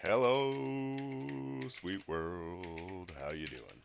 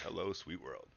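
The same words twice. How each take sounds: First: Loud bright greeting to the world; hammed-up stream greeting; big hello. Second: Said in the usual way. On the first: Shown as a demonstration. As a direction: throw the hello out grandly. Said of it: "I'm just gonna say". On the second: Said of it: "let's engage".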